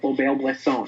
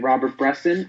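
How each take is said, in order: First: The name is said with a French pronunciation. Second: The name is said with an English pronunciation. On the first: This is the correct, if pretentious-sounding, way. The speaker calls it right. "I say ... I always feel the need to pronounce it right" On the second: This is how most people casually say it. The speaker calls it wrong. "people say"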